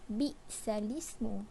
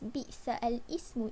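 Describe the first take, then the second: First: The vowel moves onto the lam, merging syllables. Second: The 'al' is said as a separate syllable. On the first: The speaker calls it right. "dibaca secara naqal" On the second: The speaker calls it wrong. "sepatutnya tidak boleh dibaca seperti itu"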